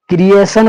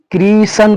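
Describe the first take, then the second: First: "क्रिएशन" with an extra "e", kri-e-san; wrong pronunciation. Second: "क्रिएशन" squeezed into two syllables, kree-san; taught pronunciation. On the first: Teacher warning it is wrong, "क्रिएशन" as kri-e-san. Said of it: "पढ़ेंगे तो गलत होगा". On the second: Teacher giving the intended reading, "क्रिएशन" as kree-san. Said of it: "पढ़ेंगे". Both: Shown as a demonstration.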